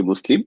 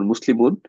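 First: মুসলিম stopped on the final m, with no -un ending; মুসলিম read in pausal form, case ending dropped; waqf pausal form. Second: Said in the usual way. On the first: Shown as a demonstration. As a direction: end মুসলিম on a closed m, as at a pause. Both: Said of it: "যখন আমরা এটা ওয়াকফ করে পড়ি".

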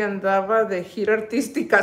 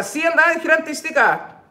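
First: Said in the usual way. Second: Playful. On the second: Real, not acted.

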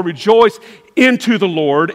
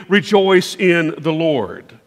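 First: Said in the usual way. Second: Slow, weighty "rejoice in the Lord" with REJOICE leaned on; slow down and press on REJOICE, like Paul insisting; emphatic. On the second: Retold or imitated. Pastor repeating Paul's command to the congregation, slow and emphatic. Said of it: "again I say, emphatically".

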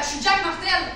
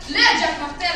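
First: Said in the usual way. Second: "Le" punched louder than the name; emphatic "Le", as in THE one; stress on Le. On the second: Acted. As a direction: lean hard on "Le" before Jack Martel. Repeats name with stressed article.

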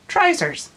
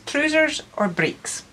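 First: "Trousers" said high and bright as "traizers"; Ulster Scots trousers. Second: "trousers" with a plain "oo" vowel, then "breeks"; trousers, standard. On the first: Artist teaching workshop viewers Ulster Scots words, "Trousers" as "traizers". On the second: Artist teaching workshop viewers Ulster Scots words, "trousers" said the usual way. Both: Shown as a demonstration. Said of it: "also known as trousers or breeks".

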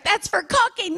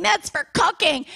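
First: Put-on high child's protest; little girl voice. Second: Put-on high and slow child's protest; slow little girl whine. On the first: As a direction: pipe up like a scolded little girl. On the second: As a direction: drag it out like a pleading little girl. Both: Daughter protests during chase.

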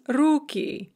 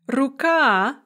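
First: Руки with the У stressed; stress on first syllable. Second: Рука with the final А stressed; stress on second syllable. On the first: Teacher showing the plural of hand, руки stressed at the start. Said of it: "stress shifts to the first syllable". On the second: Teacher showing the singular of hand, Рука stressed at the end. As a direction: punch the last syllable of Рука. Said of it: "stressed on the second syllable in the singular". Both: Shown as a demonstration.

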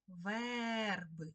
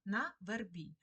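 First: Верби with a long stressed Е in the first syllable; stressed, stretched Е. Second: На вербі with stress on the final І; stress on last syllable. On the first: Teacher giving the check word, верби stressed on long Е. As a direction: draw out the Е in верби so it is clearly heard. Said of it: "Чуємо Е". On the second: Teacher posing an example from the poem, вербі stressed on final І. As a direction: lean on the ending of вербі. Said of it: "треба підібрати перевірне слово". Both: Shown as a demonstration.

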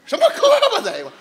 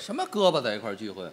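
First: Fast, high, loud 胳膊 echo; indignant correction. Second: 胳膊 as an echo of 哥们儿; mishearing 胳膊. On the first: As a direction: spit out 什么胳膊 in protest. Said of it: "哥们儿。". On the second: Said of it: "您那嘴说清楚点儿行吗". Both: Real, not acted.

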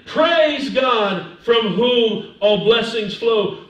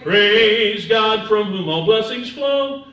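First: Loud, slow declaration; emphatic preacher's proclamation, drawn out; spoken praise. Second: Slow, loud hymn singing; sung doxology. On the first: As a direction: declare it phrase by phrase. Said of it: "So when you're saying". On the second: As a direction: sing it out with long held notes. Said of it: "we used to sing the doxology". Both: Shown as a demonstration.

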